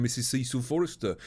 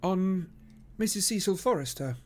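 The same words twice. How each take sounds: First: Said in the usual way. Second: High, teasing repeat of the name; amused echo. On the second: Acted. Detective teases friend about his visit, amused. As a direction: echo it with a twinkle of a smile. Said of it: "with a twinkle of a smile".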